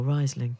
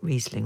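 First: Host offering "Riesling" as RISE-ling; alternative pronunciation. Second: Host offering "Riesling" as REEZ-ling; first pronunciation offered. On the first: Host questions the wine's name, "Riesling" as RISE-ling. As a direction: say "Riesling" with an eye sound first. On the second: Host checks the wine's name, "Riesling" as REEZ-ling. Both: Shown as a demonstration. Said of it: "is it Riesling or Riesling?".

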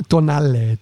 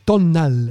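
First: Tonale said as tɔ-NA-le, Italian style, with an open final e; a first careful try at Tonale, Italian style. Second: Said in the usual way. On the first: Shown as a demonstration. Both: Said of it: "I don't know how to say it".

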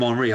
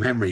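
First: "Henri" said the French way, silent H, stress on the last syllable; "Henri" as in Thierry Henry, with a touch of French. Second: Said in the usual way. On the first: Shown as a demonstration. Explaining the dog's name to the guest: "Henri" the French way. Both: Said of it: "I didn't say it with an accent".

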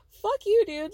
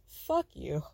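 First: High, loud burst of outrage; angry outburst. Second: Low, scornful dismissal; low contempt. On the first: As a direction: throw it out loudly, pitch leaping up. Outburst at his excuse, repeated. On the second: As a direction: drop the pitch and dismiss them coldly. Reacting with contempt to his excuse. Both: Real, not acted.

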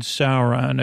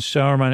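First: "Sauron" said as SOW-ron; Sauron pronunciation. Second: "Sauron" said as SOW-er-man; Saruman pronunciation. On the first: Villagers hear the other name, "Sauron" said as SOW-ron. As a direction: end "Sauron" in -ron, two syllables. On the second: Villagers list their enemies, "Sauron" said as SOW-er-man. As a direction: end "Sauron" in -man, three syllables. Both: Retold or imitated. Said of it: "Which one?".

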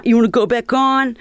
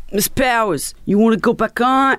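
First: Higher, repeated call to go back on; mock yell from the promoter; calling out again. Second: Higher, calling her back onstage; mock yell from the promoter. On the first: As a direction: press her to go back on. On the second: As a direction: shout over the crowd's noise. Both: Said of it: "he's yelling at me".

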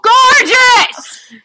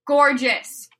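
First: High, very loud gushing shout; yelling. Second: "Gorgeous" punched out a bit louder; emphatic gushing. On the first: Enthusing about the Dracula castle, comic full yell. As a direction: yell it over the others. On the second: Defending the Dracula castle to co-hosts, emphatic "Gorgeous". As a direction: land hard on "Gorgeous" as a final verdict. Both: Real, not acted. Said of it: "Please continue yelling about the Dracula castle".

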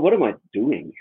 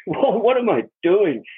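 First: Said in the usual way. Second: Slower and higher, through a laugh; amused disbelief, drawn out; laughing at himself. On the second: Retold or imitated. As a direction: laugh at your own foolishness.

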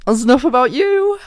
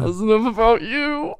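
First: High, loud squealing laughter; laughing. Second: High, teary laughter; laughing. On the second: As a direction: laugh till you cry. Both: Real, not acted. Giggling fit.

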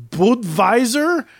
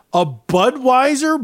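First: Budweiser said "Bud-vai-ser" with a V, slowly; German-style Budweiser. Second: Said in the usual way. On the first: Shown as a demonstration. Joking that Americans drink German beer, Budweiser with a German V. Contrasting beer name pronunciations.

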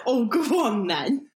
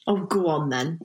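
First: Eager yielding. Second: Mock reluctant acceptance. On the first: Guest accepting tea, giving in gladly with a lift. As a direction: go on then, lifted and brighter. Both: Shown as a demonstration. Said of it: "You respond to tea by saying tea".

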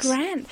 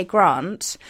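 First: "Grant" with a short, flat "a", as in "ant"; "Grant" copying the guest's flat "a"; his Grant. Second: "Grant" with a long, broad British "ah", like "Grahnt"; "Grant" with an open "ah" vowel, not the flat "a"; posh Grant. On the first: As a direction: say "Grant" the North American way, slightly higher. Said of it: "that sounds so cool". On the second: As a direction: say "Grant" the posh English way, rhyming with "want". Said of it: "I sound really posh". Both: Shown as a demonstration.

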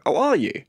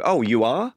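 First: "Oh, are you?" with ARE leading and prominent; British word order query. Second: "Oh, you are?" with "are" rising at the end; Canadian-style query. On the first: Comedian showing how people over here reply, "Oh, are you?" stressed on "are". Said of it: "over here someone would go". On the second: Comedian showing how Canadians flip the words, "Oh, you are?" rising on "are". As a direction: lift "are" questioningly in "Oh, you are?". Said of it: "in Canada they would go". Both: Shown as a demonstration.

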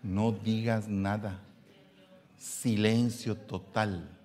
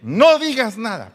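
First: Soft, slow, gentle "No digas nada"; calm, slow advice. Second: Loud, high, forceful warning, NO hit hard. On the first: Preacher gently counseling husbands, slow soft advice. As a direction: say it slowly and softly, calming. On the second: Preacher warning husbands, forceful loud order. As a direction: shout "No digas nada" like a stern order. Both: Acted.

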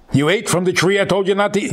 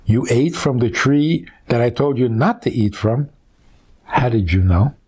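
First: Higher, fast, accusing God's voice; angry accusation. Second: Gentle question. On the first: Wrong reading: God angrily accusing Adam. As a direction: snap it out like a scolding. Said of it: "Why are you making it an angry statement?". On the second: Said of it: "Who says he said it like that?". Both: Shown as a demonstration.

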